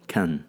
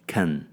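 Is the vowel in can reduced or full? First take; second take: reduced; reduced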